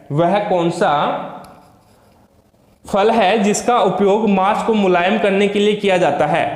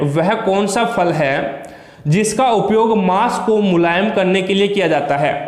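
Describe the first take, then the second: Both takes have the same delivery.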